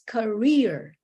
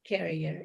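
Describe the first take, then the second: First: The stress is on the second syllable. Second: The stress is on the first syllable. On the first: The speaker calls it right. "the stress is in the second syllable" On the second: The speaker calls it wrong. "It's not career"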